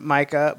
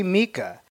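First: Micah said MY-kuh, long I; "Micah" as MY-kuh, the right way; correct name. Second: Mika said MEE-kuh, long E; "Mika" as MEE-kuh, a mispronunciation; wrong name. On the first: Friend using Micah's name, said MY-kuh. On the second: Greeting a friend's girlfriend, "Mika" said MEE-kuh. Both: Retold or imitated. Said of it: "That's not how my name is pronounced".

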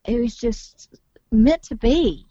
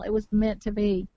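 First: "meant" stressed, slow and louder; emphatic. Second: Said in the usual way. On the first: Real, not acted. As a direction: lean hard on "meant", slowly. Stressing fate of meeting.

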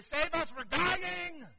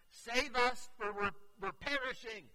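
First: Much higher, louder frantic scream-plea; desperate cry. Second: Higher, louder panicked plea; fearful cry. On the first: Disciples begging sleeping Jesus, desperate panicked cry. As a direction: shriek for help, terrified. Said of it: "We would say". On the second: Disciples waking Jesus in the storm, fearful cry. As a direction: cry out for rescue in fear. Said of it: "you can hear the fear in their voice". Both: Retold or imitated.

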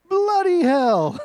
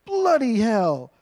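First: Slow British exclamation, higher and louder; mock British outburst, pushed up high; louder British accent. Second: Slow, mock British swearing; imitating his son's British accent, drawn out. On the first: Son getting more worked up at his game, in a louder British accent. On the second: Son swearing at his video game, in a put-on British accent. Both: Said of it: "if you do it in a British accent".

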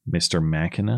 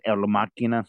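First: Machina said the English way, MAK-uh-nuh; plain English Machina, hard k. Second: Machina said the Spanish way, El Machina with a hard k; Spanish accent. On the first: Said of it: "Do I pronounce it Machina or Machina". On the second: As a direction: say Machina as mah-KEE-nah, Spanish style. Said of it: "if you want to put in the Spanish, uh, accent". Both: Shown as a demonstration.

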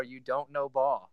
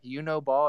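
First: Slow, drawn-out put-on catchphrase. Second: Said in the usual way. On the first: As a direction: drag out the diss like a signature line. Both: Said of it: "He needs to bring back".

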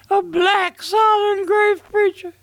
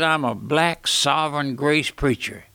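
First: Much higher, astonished repeat of a claim; amazed, raised-voice question; incredulous echo. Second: Said in the usual way. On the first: Retold or imitated. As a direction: echo it back in high-pitched disbelief. Echoes pastor's claim in disbelief.

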